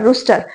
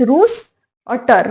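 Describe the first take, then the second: First: Said in the usual way. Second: "रूस और टर" said slowly in two separate chunks; split into syllables. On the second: Shown as a demonstration. Teacher splitting rooster into syllables for students, slowly. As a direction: break "रूस और टर" apart, syllable then syllable. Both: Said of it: "रूस्टर बोलना है उसको".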